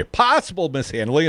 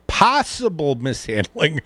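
First: Said in the usual way. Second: "possible mishandling" drawn out slowly; labored, hard to say. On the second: Acted. Host repeating the line he choked on, "possible mishandling" slow and labored. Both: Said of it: "I know it's hard to say".

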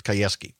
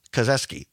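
First: "Kayeski" with a y glide in place of z; corrected pronunciation. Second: "Kazeski" said with a z in the middle; first-guess pronunciation. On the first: Host correcting a candidate's surname, careful "Kayeski" with a y. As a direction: say "Kayeski" low, with a y sound after "Ka". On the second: Host trying a candidate's surname, tentative "Kazeski" with a z. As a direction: say "Kazeski" with a z sound after "Ka". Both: Real, not acted. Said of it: "I believe it's pr-, pronounced".

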